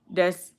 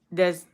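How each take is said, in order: Both takes have the same delivery.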